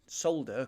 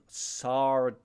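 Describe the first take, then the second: First: The word is said with an L sound. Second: The word is said without an L sound. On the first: This is the British way of saying it. "because there's an L in it" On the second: This is the American way of saying it. "or if I'm American"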